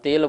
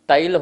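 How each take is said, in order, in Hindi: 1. पहला स्वर सादा 'e' है। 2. पहला स्वर 'ai' वाला संयुक्त स्वर है। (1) "हम तेल बोलते हैं" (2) "तैल होता है"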